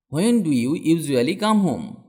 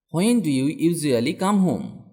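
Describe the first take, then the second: No difference in how they are said.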